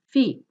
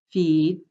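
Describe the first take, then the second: First: "feet" short, higher, clipped; short vowel before voiceless t. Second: "Feed" with a long ee; long vowel before voiced d. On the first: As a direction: snap "feet" off. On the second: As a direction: hold "Feed". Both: Shown as a demonstration. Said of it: "Let me read through them one more time".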